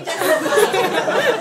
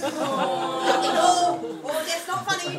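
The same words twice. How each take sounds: First: Slow, loud, laughing hard; laughing too hard to hold it in; stretched laughing. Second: Giggling through it; trying not to laugh but failing. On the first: Scolding friend while cracking up, laughing loud. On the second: Laughing at a grieving teacher, giggling. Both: Retold or imitated.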